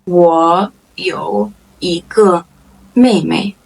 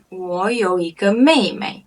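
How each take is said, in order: First: Very slow, word by word; slow model sentence. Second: Said in the usual way. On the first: Shown as a demonstration. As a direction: pause after each word for learners. Same sentence repeated slowly.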